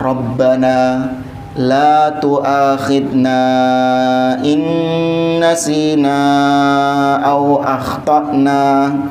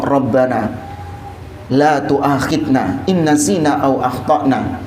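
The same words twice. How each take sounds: First: It is formally recited with drawn-out recitation sounds. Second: It is spoken plainly, like ordinary heartfelt talk. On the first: It is being read as scripture. The speaker calls it wrong. "Itu kan dengan tajwid" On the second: It is a personal prayer addressed to God. The speaker calls it right. "baca saja seperti Anda ngomong sama Allah"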